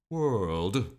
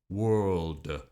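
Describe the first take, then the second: First: The pitch falls, then rises at the end. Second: The pitch falls and stays down. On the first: "some have a hook at the end to go back up" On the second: "Some arrows go down"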